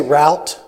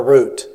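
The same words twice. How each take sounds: First: Route said to rhyme with "out"; route with an "ow" vowel; route as "rowt". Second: Route said to rhyme with "boot"; route with an "oo" vowel; route as "root". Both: Shown as a demonstration. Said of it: "how many of you say route or route".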